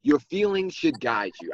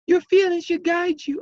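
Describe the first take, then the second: First: Said in the usual way. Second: Much higher, unhinged villain squeal; crazy voice. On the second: Acted. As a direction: read it like a deranged villain. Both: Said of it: "I gotta read this in the crazy voice".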